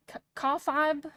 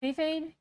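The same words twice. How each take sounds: First: Kayfabe said as "kah-fahb"; alternate pronunciation. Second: Said in the usual way. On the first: Shown as a demonstration. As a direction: try kayfabe slowly with "ah" in both syllables. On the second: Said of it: "K-, kayfabe?".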